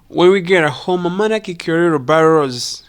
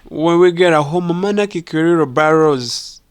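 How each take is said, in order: No difference in how they are said.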